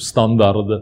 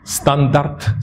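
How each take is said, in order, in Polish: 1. Końcowa spółgłoska to dźwięczne d. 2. Końcowa spółgłoska to bezdźwięczne t. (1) "zaczynają mówić w nadęty sposób" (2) "Tam powinno być T na końcu, bo jest ubezwłęcznieniem"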